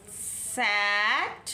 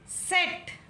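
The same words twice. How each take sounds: First: Slow सैट with mouth wide; सैट long and open. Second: Higher, short सेट; सेट short with closed e. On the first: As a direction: drag the vowel in सैट. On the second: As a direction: clip सेट with a narrow e. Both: Shown as a demonstration. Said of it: "किस तरह से हमने pronounce किया".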